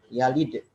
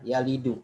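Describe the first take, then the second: First: The word ends on a bare consonant. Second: The word ends with a final vowel. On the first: The verb is in the jussive mood. "jazm tandanya sukun" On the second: The verb is in its original form. "Asal katanya yalidu"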